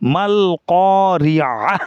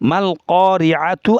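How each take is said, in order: First: The word ends with a soft 'h' sound. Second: The word ends with a 'tu' sound. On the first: The reader stops at this word. "ওয়াকফ করলে মাল করিআহ" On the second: The reading continues without stopping. "মাল করিআতু আছে"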